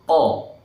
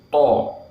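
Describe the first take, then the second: First: The sound is made without rounded, pushed-out lips. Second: The sound is made with rounded, pushed-out lips. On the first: The speaker calls it right. "Harusnya to" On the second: The speaker calls it wrong. "kita membacanya dengan monyong atau manyun"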